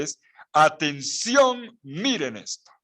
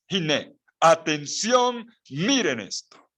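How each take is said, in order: First: "atención" slow and stretched; emphatic call. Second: "atención" drawn out slow and high; emphatic call. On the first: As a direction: stretch "atención" to grab attention. ("atención" alargado y enfático) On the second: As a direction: stretch "atención" like a call to look. ("Hine, atención", lento y enfático) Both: Shown as a demonstration. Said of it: "la expresión vean no es suficiente".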